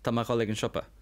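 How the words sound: Spoken in a Connemara Irish accent, mé reduced. "In Connemara, you might say Tama"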